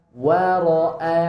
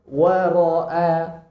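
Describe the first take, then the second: No difference in how they are said.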